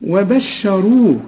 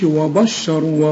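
First: وبشروه slow with a heavy راء; model recitation. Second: وبشروا with the راء thinned, the error; wrong thin reading. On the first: Teacher models the word for the student to copy, slow. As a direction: stretch وبشروه, thick راء. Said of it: "زي ما أنا قلتها". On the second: Teacher imitates the student's mistake, mild. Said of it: "وما تقولش". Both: Shown as a demonstration.

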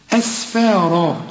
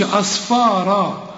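First: أسفارا with a thin light S, slow and drawn out. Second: أصفارا with a heavy emphatic S like ص; wrong emphatic S. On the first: Teacher reciting the correct word slowly for a student. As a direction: draw out أسفارا with a plain light sin. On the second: Teacher warning a student off the emphatic sad. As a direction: say أصفارا thick, as the wrong version. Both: Shown as a demonstration. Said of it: "ما تقولش أصفارا".

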